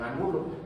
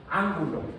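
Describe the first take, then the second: First: The stress is on the second syllable. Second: The stress is on the first syllable. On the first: It is a person's surname. "sería el apellido de algún señor" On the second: It names the geometric figure. "Con la tilde en la A"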